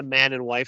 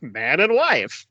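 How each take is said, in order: First: Said in the usual way. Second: Very slow, stretched-out wedding quote; confused clergyman. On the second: Retold or imitated. Fan imitating the confused clergyman, slow and drawn out. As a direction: blurt it confusedly but draw out each word. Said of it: "so confused, and it's, like, out of nowhere".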